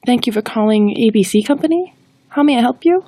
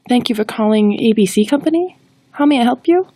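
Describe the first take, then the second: First: It sounds hesitant and unsure. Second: It sounds hesitant and unsure.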